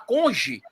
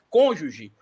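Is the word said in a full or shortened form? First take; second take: shortened; full. First: The word is shortened to two syllables. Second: The word is said in full, three syllables. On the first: The speaker calls it wrong. "fala conge" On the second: The speaker calls it right. "Ele não sabe falar a palavra cônjuge"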